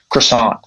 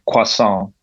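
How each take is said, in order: First: It is said in a Canadian accent. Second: It is said in an English accent. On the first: "I'm from Ontario and it's we bastardize it" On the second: "like in an English accent, they'll say croissant"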